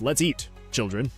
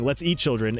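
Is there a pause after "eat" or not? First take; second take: pause; no pause. First: There is a pause after "eat". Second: It runs straight through with no pause.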